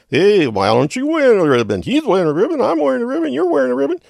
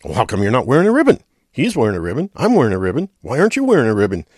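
First: Much higher, louder put-on leader voice; march leader. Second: Louder, fast, hammered-home questions; mock badgering, rushed; insistent marcher. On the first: March leader yelling down at Kramer, much higher and louder. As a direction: ham up the march leader hollering back. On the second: Marcher badgering Kramer over the ribbon, fast and louder.

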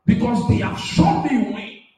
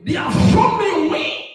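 First: Said in the usual way. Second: Preacher's shouted repeat. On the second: Acted. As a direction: shout it back at the congregation, stressing shown.

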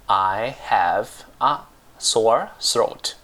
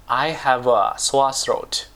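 First: "I have a sore throat" drawn out slowly with gaps between words; slow word-by-word model. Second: Said in the usual way. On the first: Shown as a demonstration. Teacher gives learners the English for a painful throat, slow word-by-word "I have a sore throat".

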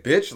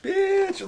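First: Strong-term "bitch". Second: Very high-pitched, joking BITCH; playful "bitch". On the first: Showing co-host the strong term, firm blunt delivery. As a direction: say it short and hard, as an insult. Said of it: "like, a way different". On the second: Showing co-host how tone changes the word, high playful delivery. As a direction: pitch it way up, harmless and silly. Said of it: "it's how you say it". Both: Shown as a demonstration.

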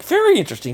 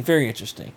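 First: Pitched way up, mock intrigued; high mock interest. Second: Said in the usual way. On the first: Shown as a demonstration. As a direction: fake fascination, high.

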